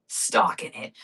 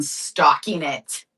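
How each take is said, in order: First: A hushed, playful creepy echo; mock spooky whisper. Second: Said in the usual way. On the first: Telling viewers about cats stalking the doves, mock spooky whisper. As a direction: breathe it out as a mock menacing whisper.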